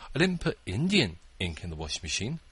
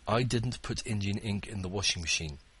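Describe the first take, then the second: First: The word "Indian" is stressed. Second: No word is stressed; the delivery is flat. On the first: "It was permanent ink" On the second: "I tried to read that with no intonation"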